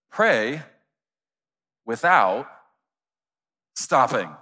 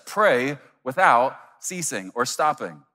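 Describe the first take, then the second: First: PRAY... WITHOUT... STOPPING, each word alone with long pauses; one word at a time, "Pray. without. stopping."; word-by-word emphasis. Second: Said in the usual way. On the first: Shown as a demonstration. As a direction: punch "Pray", "without", "stopping" as separate beats. Restates verse word by word.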